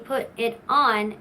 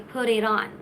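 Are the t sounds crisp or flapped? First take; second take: crisp; flapped. First: The t sounds are said as crisp t sounds. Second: The t sounds are said as quick flaps. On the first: The speaker calls it wrong. "Instead of saying" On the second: The speaker calls it right. "you say"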